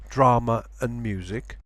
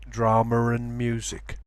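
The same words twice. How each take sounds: First: No r sound links drama to and. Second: An r sound links drama to and. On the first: "some people pronounce it drama with no r" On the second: "other people pronounce it"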